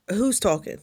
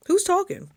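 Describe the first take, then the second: First: Said in the usual way. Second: Much higher, louder repeat of the question; puzzled call into your own head; high startled who's talking. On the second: Retold or imitated.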